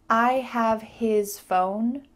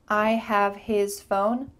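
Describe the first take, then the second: First: The H sound in 'his' is pronounced. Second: The H sound in 'his' is pronounced.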